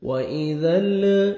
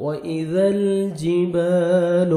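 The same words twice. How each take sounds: First: ال with the lam shaken, the mistake to avoid; how not to say واذا ال- with a moving lam; wrong way. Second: الجبال with a steady, unshaken lam; smooth ذ into a still lam in واذا الجبال; teacher modelling the right lam after the wrong one; correct way. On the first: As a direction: demo of a wobbling lam in ال. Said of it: "ایسے نہیں پڑھنا". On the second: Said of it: "لام کو آپ نے ہلانا نہیں ہے". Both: Shown as a demonstration.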